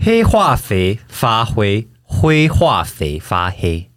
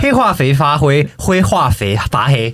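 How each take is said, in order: First: It is said slowly and carefully. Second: It is said quickly, at higher speed.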